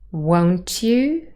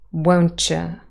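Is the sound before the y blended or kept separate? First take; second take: separate; blended. First: The t and y sounds stay separate. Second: The t and y sounds blend together.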